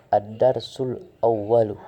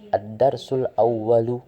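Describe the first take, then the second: First: The two words are joined together. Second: The same.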